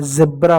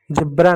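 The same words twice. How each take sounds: First: जेब्रा starting on a buzzing z; correct z pronunciation. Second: जेब्रा starting on English j; wrong j pronunciation. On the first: Teacher correcting the students' mistake, z version. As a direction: say जेब्रा as "zebra". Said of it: "जेब्रा होता है". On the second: Teacher rejecting the students' mistake, j version. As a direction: say जेब्रा as "jebra". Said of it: "जेब्रा नहीं होता है". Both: Shown as a demonstration.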